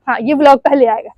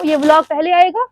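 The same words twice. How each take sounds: First: Falling tune through आएगा, settled; confirming answer. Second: Wondering aloud, आएगा rising; questioning tune. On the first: Vlogger settling which video airs first, confirming with a falling आएगा. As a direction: answer yourself firmly, आएगा going down. Answers her own question. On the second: Vlogger wondering which video airs first, asking with a rise on आएगा. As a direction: lift आएगा at the end as a question. Asks herself, then answers yes. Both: Real, not acted.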